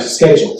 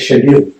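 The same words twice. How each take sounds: First: It is said with an American pronunciation. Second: It is said with a British pronunciation. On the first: "as opposed to" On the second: "I used to say"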